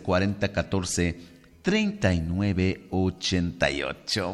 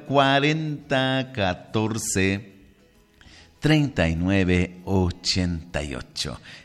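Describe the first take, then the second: First: The number is said fast. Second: The number is said more slowly.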